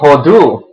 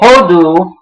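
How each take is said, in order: First: The stress is on the last syllable. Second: The stress is on the first syllable.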